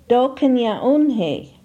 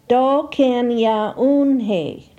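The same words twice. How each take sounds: First: It is said at normal conversational speed. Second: It is said slowly, each syllable distinct. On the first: "second for normal pronunciation" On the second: "First for enunciation"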